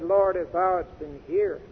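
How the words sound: The word 'here' is stressed. "she put the emphasis, I believe, on here"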